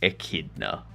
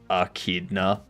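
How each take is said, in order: First: The word begins with an 'eh' vowel sound. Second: The word begins with an 'ah' vowel sound. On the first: "not echidna, like it's supposed to be pronounced" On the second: "they even say it with an A at the start"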